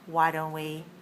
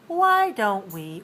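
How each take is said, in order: First: The word 'why' is said on a low pitch. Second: The word 'why' is said on a high pitch. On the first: It makes a suggestion. The speaker calls it right. "It's low tone, low tone" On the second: It asks for a reason. The speaker calls it wrong. "We don't say"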